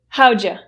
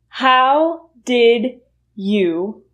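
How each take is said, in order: First: The words are run together, 'you' reduced. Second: Each word is said fully and separately. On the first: "See how much easier that is to say?" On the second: "How did you will, will reduce to how'd ya"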